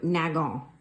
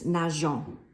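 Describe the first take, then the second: First: The middle consonant is a hard g sound. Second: The middle consonant is a soft zh sound. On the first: The speaker calls it wrong. "you would pronounce that verb nagon, which is just kind of ugly" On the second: The speaker calls it right. "with the E, it sounds like this"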